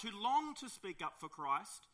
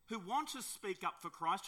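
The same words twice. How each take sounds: First: "long" stretched out, high and loud; stress on long. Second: "want" given a firm, raised push; stress on want. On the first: Preacher on believers longing to speak up, "long" drawn out emphatically. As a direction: lean slowly and hard on "long". Repeats phrase with stronger word. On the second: Preacher on believers wanting to speak up, "want" stressed. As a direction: lift "want", rising at the end. Repeats phrase, swapping want for long. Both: Real, not acted.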